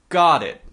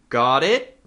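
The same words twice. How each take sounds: First: The voice falls at the end. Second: The voice rises at the end. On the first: It confirms that the speaker understands. "The other means yes, I do" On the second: It asks whether the listener understands. "Got it means do you understand?"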